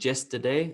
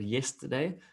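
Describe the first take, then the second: First: The word begins with a 'j' sound. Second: The word begins with a 'y' sound. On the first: The speaker calls it wrong. "or the other way around, you're saying yesterday" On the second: The speaker calls it right. "instead of yesterday"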